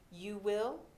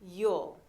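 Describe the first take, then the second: First: Both words are said fully and separately. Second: The words merge into one short syllable.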